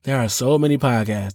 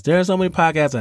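First: Said in the usual way. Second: "so" punched higher with a falling tune; stress on so. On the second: Shown as a demonstration. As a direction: hit "so" hard in "There are so many podcasts". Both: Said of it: "it's gonna start off like".

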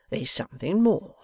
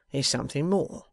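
First: Menacing whisper. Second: Said in the usual way. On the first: A narrator's reading. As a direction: breathe it as a threat. Wegg's menacing hint.

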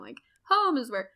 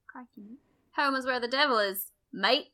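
First: Said in the usual way. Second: Mock Australian accent, a bit faster; hammed-up Aussie "mate" delivery. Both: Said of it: "how would you do that in an Australian accent?".

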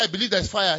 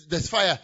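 First: Said in the usual way. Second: Short, loud, certain "There's fire."; urgent declaration. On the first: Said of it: "You can't say". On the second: Shown as a demonstration. Preacher showing the right way to announce fire. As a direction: state it as plain urgent fact. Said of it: "You say".

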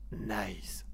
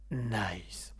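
First: Said in the usual way. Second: Breathy whispered signature nice. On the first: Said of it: "Mouton qui nous dit". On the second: Shown as a demonstration. Radio host whispering his trademark word for a listener. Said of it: "pour Mouton, je vais le refaire".

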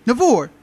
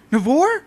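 First: "Navor." high and loud, falling at the end; insistent NAVOR. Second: "Navor?" high, loud, rising into a question. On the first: Caller expects the pharmacy worker to know her, insistent falling "Navor". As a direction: land "Navor" firmly on a falling tune. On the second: Caller checks who answered the pharmacy phone, questioning "Navor?" on a high rise. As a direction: ask "Navor?" with the pitch climbing high. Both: Retold or imitated.

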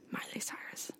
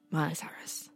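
First: A hushed whisper, leaning on the; whispered again. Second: Hushed, breathy reveal of the name; whispered reveal. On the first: Host whispering the name again to her cohost. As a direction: whisper it conspiratorially. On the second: Podcast host whispering the artist's name to cohost. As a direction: whisper it like a secret. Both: Acted.

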